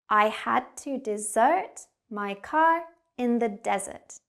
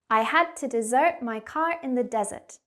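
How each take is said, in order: First: The sentence is spoken slowly. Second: The sentence is spoken quickly. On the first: "I'm going to say it first slowly" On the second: "and then we'll speed up"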